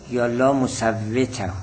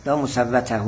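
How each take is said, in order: First: مصوته said as musawwita, with i in the middle; reading musawwita. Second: لا مصوته said as musawwata, with a in the middle; reading musawwata. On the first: Teacher giving the other reading, musawwita. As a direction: read مصوته as musawwita, with the i vowel. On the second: Teacher reading the Arabic text as musawwata. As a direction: read مصوته with a clear a vowel, musawwata. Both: Shown as a demonstration. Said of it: "هر دو جور درسته".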